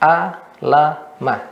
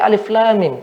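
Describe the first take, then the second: First: Each letter is read as a short syllable. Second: Each letter is read by its full name. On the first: The speaker calls it wrong. "tidak dibaca a, la, ma, tidak" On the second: The speaker calls it right. "seperti alif lam mim"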